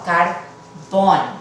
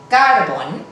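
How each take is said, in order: First: The stress falls on the last syllable. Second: The stress falls on the first syllable. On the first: The speaker calls it right. "la sílaba tónica es la última" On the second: The speaker calls it wrong. "el acento fonético debería de caer en la penúltima"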